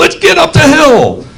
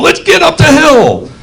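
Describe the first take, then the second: First: It is said in a forceful, commanding way. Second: It is said in a forceful, commanding way.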